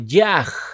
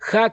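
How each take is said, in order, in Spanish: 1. La palabra empieza con un sonido y. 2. La palabra empieza con un sonido h aspirada. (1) "otros lo pronuncian como Yaj" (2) "el saludo hebreo para la fiesta de Sukkot es Hag Shameach Sukkot"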